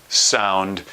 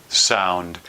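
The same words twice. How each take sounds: No difference in how they are said.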